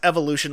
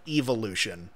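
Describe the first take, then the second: First: The first syllable has a short 'eh' vowel. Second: The first syllable sounds like 'ee', as in evil.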